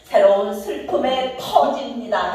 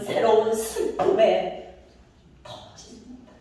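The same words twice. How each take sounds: First: The phrase is said loudly and high. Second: The phrase is said softly and low. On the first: "터짐 크게 해도 돼" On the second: "그래서 저는 여기를 낮췄어요"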